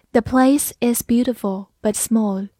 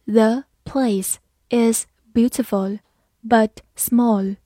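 First: Said in the usual way. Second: Slow, each word set apart; slow reading. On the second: Shown as a demonstration. Teacher leads learners through the example, slow and separated. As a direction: read slowly with small gaps between words. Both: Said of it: "慢慢来读".

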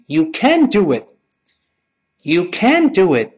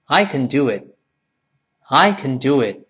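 First: Slow, "can" punched high with full "æ"; stressed can't. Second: "can" reduced to a quick "kn"; weak can. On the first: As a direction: hit "can" hard, T swallowed. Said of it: "这一定要重读了". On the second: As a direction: pass lightly over "can" in the sentence. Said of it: "一般来说是弱化的". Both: Shown as a demonstration.

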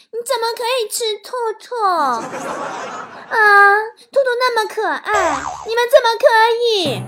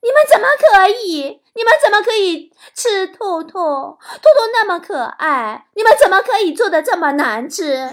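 First: High, loud, cutesy pleading; overly sweet, fake TV-drama whine. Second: High, loud outraged complaint, then dragged out; mock outrage over bad cooking; indignant punchline. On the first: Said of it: "连说话都假到啊，就像读电视剧的台词似的". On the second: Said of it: "如果是我的话，我肯定会说".

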